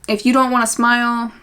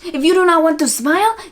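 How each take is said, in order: First: It is said in the speaker's normal voice. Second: It is said in an imitation of Patty's voice.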